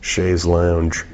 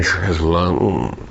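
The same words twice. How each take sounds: First: "chaise lounge" Americanized as "shayz lownge"; "chaise lounge" with a full "ow" and "dge" ending; deliberately mispronounced chaise lounge. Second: "chaise lounge" as "shez lon", with a buzzing Z. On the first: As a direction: rhyme "lounge" in "chaise lounge" with scrounge. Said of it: "I like to say it wrong". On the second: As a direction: put a Z in "chaise lounge" and end it French-style. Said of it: "I like to put the Z in there". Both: Shown as a demonstration.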